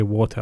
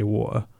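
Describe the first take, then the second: First: Said in the usual way. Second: "water" with the t dropped to a glottal stop, wa-er; "water" with a swallowed t, like back home; East London water. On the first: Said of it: "I don't say water, I say water". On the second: Shown as a demonstration. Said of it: "I don't say water".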